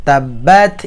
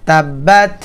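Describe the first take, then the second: No difference in how they are said.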